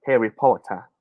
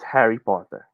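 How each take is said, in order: First: Harry Potter in a British accent; imitated British accent. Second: Said in the usual way. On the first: Shown as a demonstration. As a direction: demonstrate British English, dropping the final r. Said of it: "The British accent". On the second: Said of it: "the way they say it is".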